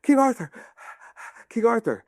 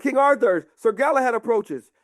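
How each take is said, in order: First: High, urgent mock calling; distant caller. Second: High, proclaimed herald's call; announcing soldier. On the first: Sir Galahad chasing the departing army, high breathless calling. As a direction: call after the king between puffs of breath. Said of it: "you hear a voice". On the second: Acted. Soldiers alerting King Arthur, high heralding call.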